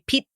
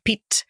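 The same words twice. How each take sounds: First: The final t is swallowed without air. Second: The final t pops with air. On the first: The speaker calls it wrong. "Most people would swallow or do what I'm a linguist, what we would call not releasing the T" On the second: The speaker calls it right. "You aspirated the T on the end of Pete"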